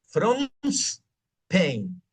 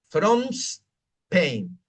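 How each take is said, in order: The two takes are said the same way.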